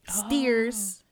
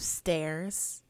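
First: The vowel sounds like the vowel in 'ear'. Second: The vowel sounds like the vowel in 'air'. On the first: This is how a relative from the speaker's family says it. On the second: This is the usual way people say it.

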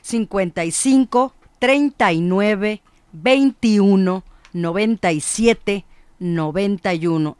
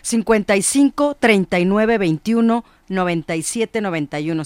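First: The number is read at a slow pace. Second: The number is read at a quick pace.

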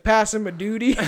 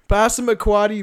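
First: The name ends with a 'duty' sound. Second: The name ends with a 'quoddy' sound. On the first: The speaker calls it wrong. "I was like, Passamaduty" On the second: The speaker calls it right. "Why can't I say that?"

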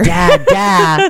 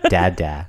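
First: The word is said loudly, almost yelled. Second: The word is said softly and quietly. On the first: The child is addressing the grandfather. "granddad is just dad louder" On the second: The child is addressing the father. "he says dead very quietly"

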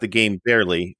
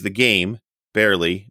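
First: "Barely" runs on without a break. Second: There is a break before "barely". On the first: Barely is the name of a game. The speaker calls it wrong. "not the game barely" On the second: He hardly plays the game at all. The speaker calls it right. "your husband plays the game barely"

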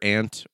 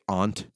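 First: The vowel is short, as in ant. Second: The vowel is a long, open ah.

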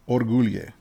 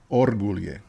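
First: The stress is not on the first syllable. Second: The stress is on the first syllable. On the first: The speaker calls it wrong. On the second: The speaker calls it right.

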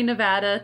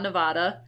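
First: It is pronounced the way Nevadans say it. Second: It is pronounced the way outsiders say it. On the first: It sounds like someone from the state. The speaker calls it right. "if you want to sound like a Nevadan, it's definitely Nevada" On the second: It sounds like someone from outside the state. The speaker calls it wrong. "not Nevada"

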